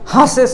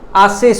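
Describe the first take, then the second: First: The word starts with an audible h sound. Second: The word starts with a vowel, no h. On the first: The speaker calls it wrong. "हासेस नहीं होता है" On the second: The speaker calls it right. "आसेस होता है"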